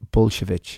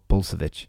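First: The name is given a Polish pronunciation. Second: The name is given an American pronunciation. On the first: "That's Polish pronunciation" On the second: "I think in America it's called Bulsiewicz"

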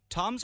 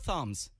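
First: The name begins with a plain T sound. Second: The name begins with a TH sound. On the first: "It's Toms" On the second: "Obviously, it's Thoms"

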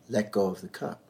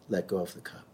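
First: It is said in a firmer, insistent tone. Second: It is said in a gentle, calm tone.

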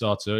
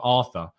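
First: The name is said with a Brazilian pronunciation. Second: The name is said with an English pronunciation. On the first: The speaker calls it right. "I think it's Brazilian" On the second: The speaker calls it wrong. "It's not Arthur"

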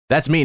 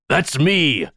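First: It is said in the speaker's normal voice. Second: It is said in a put-on pirate voice. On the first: The speaker calls it wrong. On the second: The speaker calls it right.

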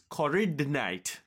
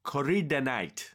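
No difference in how they are said.

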